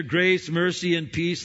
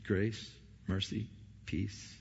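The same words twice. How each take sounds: First: Grace mercy and peace rung out higher and louder; proclaimed greeting. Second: Grace mercy peace slowed and much softer; soft grace greeting. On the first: Preacher quoting Paul's greeting to the church, higher and louder. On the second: Preacher savouring Paul's greeting, soft and slow. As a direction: let Grace mercy peace fall gently. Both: Acted.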